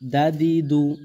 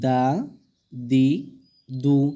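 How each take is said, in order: First: The syllables are said short and quick. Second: The syllables are drawn out slowly. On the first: This is the proper way to read them. "মূলত তাড়াতাড়ি করতে হবে ... এরকমভাবে" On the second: It is slowed down for beginners to learn. "একটু হালকা করে টেনে টেনে পড়ছি"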